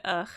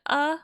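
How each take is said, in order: First: "ugh" ending in a guttural fricative; "ugh" with an audible rasp closing it; throaty "ugh". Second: "uh" as a plain open vowel; "uh", left open and smooth; pronounced "uh". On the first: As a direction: scrape the end of "ugh" like a German ch. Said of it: "or do they pronounce it". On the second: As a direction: say "uh" with no consonant at the end. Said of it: "Do other people pronounce it". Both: Shown as a demonstration.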